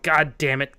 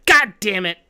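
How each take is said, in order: First: Said in the usual way. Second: Louder, higher burst of real frustration; frustrated curse. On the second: Real, not acted. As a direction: curse it out loud, exasperated.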